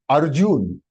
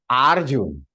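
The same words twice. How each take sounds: First: The first vowel is said short. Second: The first vowel is said long. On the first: The speaker calls it right. "it is short. A is short" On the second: The speaker calls it wrong. "You cannot say Arjun"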